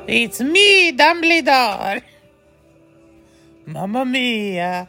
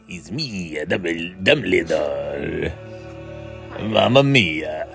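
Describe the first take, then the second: First: It is said in a higher-pitched voice. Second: It is said in a lower-pitched voice.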